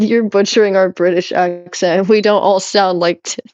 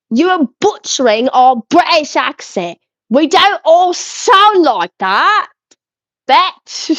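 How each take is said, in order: First: Said in the usual way. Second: Exaggerated British accent, pitched higher; mock British accent. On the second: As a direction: read it back in a hammed-up British voice. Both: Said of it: "Let me read it in your language".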